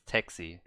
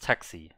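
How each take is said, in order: First: The word is said with an English pronunciation. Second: The word is said with a German pronunciation. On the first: "In English, I guess it's taxi" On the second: "in Germany it's taxi"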